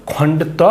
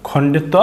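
Both takes have the same delivery.

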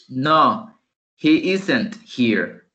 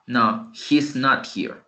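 First: Very slow "isn't" with stress; slow model negative. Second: Slow, stressed "not"; slow second form. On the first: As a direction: spell out "he isn't here" slowly. (negativa lenta y clara) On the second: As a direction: land on "not" slowly. (otra forma, lenta, acento en "not") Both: Shown as a demonstration. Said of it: "La otra forma".

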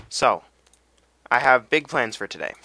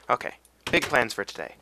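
First: Louder, proud declaration of plans; loud announcement. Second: Said in the usual way. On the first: Real, not acted. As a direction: announce it big to the viewers. Announces plans, then repeats calmer.

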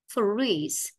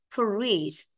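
No difference in how they are said.

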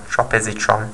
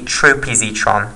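First: TROP-ih-zee-tron with a short o, softer; short-o tropisetron. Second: TROPE-ih-zee-tron with a long o; long-o tropisetron. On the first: Lecturer trying the final drug's name another way, tropisetron with short o. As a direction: say the first syllable of tropisetron as "trop". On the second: Lecturer naming the final drug example, tropisetron with long o. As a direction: say the first syllable of tropisetron as "trope". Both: Shown as a demonstration. Two pronunciations of drug name.

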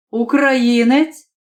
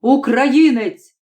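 First: Slow, rising "українець" as a sneering question; mocking question. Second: Slow "Українець" with a falling, dismissive tune; scornful verdict. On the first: Nationalist sneers at the student, "українець" rising and slow. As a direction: drag out "українець" with a disbelieving rise. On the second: Nationalist repeats the word with scorn, falling. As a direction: let "Українець" drop, contemptuous and slow. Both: A narrator's reading.

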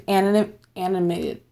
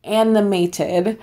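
First: Tripping over "anim-, animated", restarting mid-word; "anim-, animated" fumbled and cut short; stumbled word. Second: "animated" said slowly with every syllable spelled out; "animated" drawn out carefully with a rising end; careful correction. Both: Real, not acted. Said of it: "and I always mess up".

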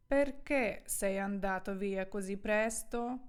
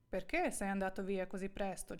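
First: Slow, deliberate Italian sentence for learners; careful, slowed-down teacher's reading; slow model reading. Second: Said in the usual way. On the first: Shown as a demonstration. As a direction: draw each word out for the students. Model sentence, first slow, then natural.

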